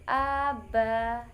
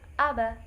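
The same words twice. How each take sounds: First: The vowels are drawn out long. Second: The vowels are kept short. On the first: The speaker calls it wrong. "atau dibaca panjang seperti aba, tidak boleh seperti itu" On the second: The speaker calls it right. "Jadi harus dibaca aba seperti itu"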